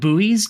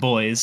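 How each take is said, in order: First: It is said with two syllables, like 'boo-ees'. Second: It is said with one syllable, like 'boys'. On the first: "in the U S they're called buoys" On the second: "We just pronounce them boys"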